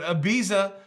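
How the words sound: The name is pronounced the American way. "I think that's the way we say it in the U S"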